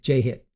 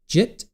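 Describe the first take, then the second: First: The name is said as two syllables. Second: The name is said as one syllable. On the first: "I like Jake J Hit" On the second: "Is it Jitt"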